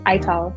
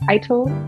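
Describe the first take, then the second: First: The word is said with a Jamaican pronunciation. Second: The word is said with an American pronunciation. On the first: "in the Jamaican way of saying it's Ital" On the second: "which is like the American way of saying it"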